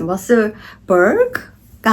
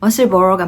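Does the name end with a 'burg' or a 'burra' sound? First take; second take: burg; burra. First: The name ends with a hard 'burg' sound. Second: The name ends with a soft 'burra' sound. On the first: The speaker calls it wrong. "머슬버그가 아닐까요?" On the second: The speaker calls it right. "머슬버러가 맞고요"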